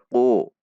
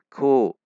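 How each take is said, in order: First: The k is made deep in the throat. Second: The k is light, with the tongue kept low. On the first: The speaker calls it wrong. "Tidak dibaca ku, ku. Itu huruf qaf" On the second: The speaker calls it right. "ku dengan istifal"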